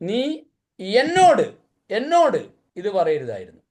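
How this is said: The word എന്നോട് is stressed. The problem is who it was said to. "എന്നോട് പറഞ്ഞുകൊണ്ട പ്രശ്നം അല്ലേ?"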